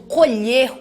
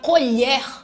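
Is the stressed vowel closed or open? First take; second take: closed; open. First: The stressed vowel is pronounced closed. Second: The stressed vowel is pronounced open. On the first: "o som é fechado" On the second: "o som é aberto"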